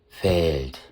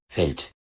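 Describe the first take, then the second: First: The vowel is lengthened to half-long. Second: The vowel is kept short. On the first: The speaker calls it right. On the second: The speaker calls it wrong.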